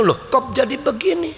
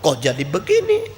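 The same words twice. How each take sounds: First: Higher, puzzled "kok jadi begini"; a young man caught off guard; startled question. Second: Dumbfounded murmur. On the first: Young man hearing the elders, a higher startled question. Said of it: "Jadi pemuda itu". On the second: Preacher recalling his own shock, a low dazed murmur. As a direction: say it to yourself, gaping. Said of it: "Saya menjadi melongo". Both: Retold or imitated.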